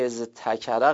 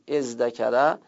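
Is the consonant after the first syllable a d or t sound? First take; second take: t; d. First: The middle consonant is a t sound. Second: The middle consonant is a d sound. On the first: The speaker calls it wrong. "ازتکره غلطه دیگه" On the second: The speaker calls it right. "ما تلفظ کنیم ازدکره"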